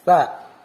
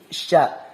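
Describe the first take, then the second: First: The syllable starts with a plain s sound. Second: The syllable starts with an sh sound. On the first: The speaker calls it wrong. "bedakan antara sa" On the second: The speaker calls it right. "Ini sya"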